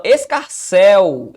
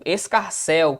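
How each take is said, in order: First: "escarcel" slow and loud, long held "cel"; stretched final syllable. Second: Said in the usual way. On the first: Shown as a demonstration. Teacher quizzing the stress rule of "escarcel", drawn-out. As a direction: drive into the last syllable of "escarcel". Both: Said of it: "É regra da oxítona".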